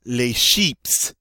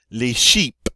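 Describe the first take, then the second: First: "sheeps" ending in a clear PS; French "Les sheeps" with a hissed final S; final S pronounced. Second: "sheep" ending on a popped P, no S; French "Les sheep" with no S heard at the end; final S left off. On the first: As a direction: sound the S at the end of "sheeps". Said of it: "supposed to pronounce the S on this one". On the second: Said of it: "I'm supposed to pronounce the S". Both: Shown as a demonstration.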